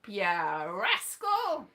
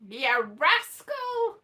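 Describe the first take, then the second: First: Lower, very slow ya rascal; teasing ya rascal, low and drawn out. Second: Ya rascal higher and louder, slow; sing-song Ya rascal, higher and slow; a fond scolding Ya rascal, pitched up; higher teasing rascal. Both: Retold or imitated.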